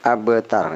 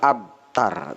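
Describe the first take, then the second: First: The b sound has an echoing bounce. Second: The b sound is plain and unreleased. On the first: The speaker calls it right. "ini qalqalah" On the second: The speaker calls it wrong.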